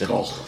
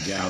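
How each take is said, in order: First: The name is said like the painter Van Gogh. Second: The name is said to rhyme with cow. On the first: This is how the speaker thinks it should be said. "I think it's Gogh" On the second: This is how locals say it. "but they say Gow there"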